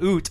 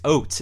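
First: The vowel sounds like the vowel in 'boot'. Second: The vowel sounds like the vowel in 'boat'. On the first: The speaker calls it wrong. "So it's not oot" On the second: The speaker calls it right. "It's oat"

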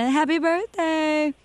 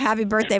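First: It is said in an odd put-on voice. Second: It is said in a plain normal voice.

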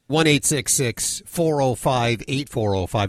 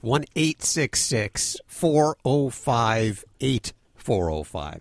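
First: The number is said fast. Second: The number is said slowly.

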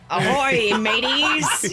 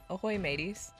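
First: It is said in an exaggerated pirate voice. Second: It is said in a plain, flat voice.

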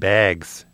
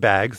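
First: The word is said in an imitated Midwestern accent. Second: The word is said in a plain, non-Midwestern accent. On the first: This is how the people who call it Bags say it. "They pronounce it bags" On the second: This is how the speaker normally says it. "I pronounce it bags"

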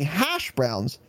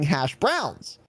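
First: The stress is on hash. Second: The stress is on browns.

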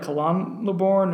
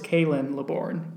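First: The first name's ending does not sound like Lynn. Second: The first name's ending sounds like Lynn. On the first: The speaker calls it wrong. "like Kalan LeBourne or Kalane LeBourne" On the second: The speaker calls it right. "It's Kaylin LeBourne. K-A-Y apostrophe Lynn, like Lynn"

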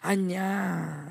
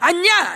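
First: The pitch drops at the end. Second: The pitch climbs high at the end.

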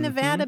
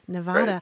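First: The middle A is a short A. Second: The middle A is not a short A. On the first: The speaker calls it right. "now I'm training myself to say mm-hmm. Nevada, because ... it's a short A" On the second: The speaker calls it wrong. "I pronounced it like your friends in North Carolina"

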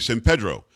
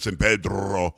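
First: The R in Pedro is not rolled. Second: The R in Pedro is strongly rolled. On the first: It is the way locals say it. The speaker calls it right. "We say San Pedro in San Antonio" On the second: It sounds deliberately foreign rather than local. The speaker calls it wrong. "He like rolled the R and everything"

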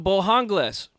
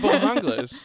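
First: The name is pronounced as if it were Spanish. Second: The name is pronounced the plain English way. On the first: The place is taken for a Mexican restaurant. The speaker calls it wrong. "Oh, this is some Mexican food. It's because you're from LA" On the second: The name is the familiar English name. The speaker calls it right. "It's Mr. Bojangles"

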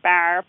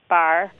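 First: The vowel is strongly fronted. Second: The vowel is only slightly fronted. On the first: "It's not like bar" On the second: "It's not radically fronted"

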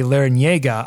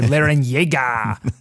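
First: The name is said with plain English sounds. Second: The name is said with exaggerated Spanish sounds. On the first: The speaker calls it right. "I think I can say Larrañaga" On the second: The speaker calls it wrong. "go sort of ESPN Deportes on it"

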